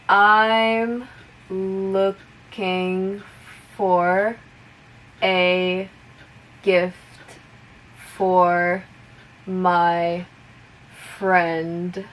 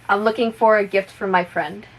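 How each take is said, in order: First: The sentence is spoken slowly. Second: The sentence is spoken at full normal speed. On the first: "I'll repeat it slowly first" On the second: "one more time at normal speed"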